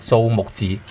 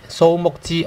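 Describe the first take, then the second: First: The syllables move through different tones, three-five-five. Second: All three syllables stay on one high level tone.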